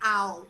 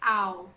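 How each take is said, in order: First: The vowel glides like in "cow". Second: The same.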